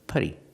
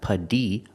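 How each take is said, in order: First: The middle consonant is a quick, soft D. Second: The middle consonant is a crisp, full T. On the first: The speaker calls it right. "use that fast D, ... but putty" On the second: The speaker calls it wrong. "not putty"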